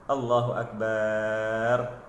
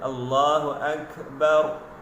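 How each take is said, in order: First: The final syllable bar is drawn out long. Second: The final syllable bar is kept short. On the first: The speaker calls it wrong. "Kebiasaan dalam masyarakat kita" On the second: The speaker calls it right. "bar tu jangan panjang, pendek saja eh"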